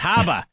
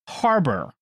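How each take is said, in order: First: The r is dropped, in a Boston accent. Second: The r is pronounced, without a Boston accent. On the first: "Otherwise, I would have said Haba" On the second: "I try to say that very intentionally without my Boston accent"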